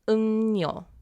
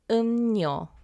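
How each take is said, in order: The two takes are said the same way.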